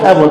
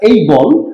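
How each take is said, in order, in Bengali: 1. প্রথম স্বরধ্বনিটি ছোট, cat-এর মতো। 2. প্রথম স্বরধ্বনিটি গ্লাইড, day-এর মতো। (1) "নো" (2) "আই এম এইবল"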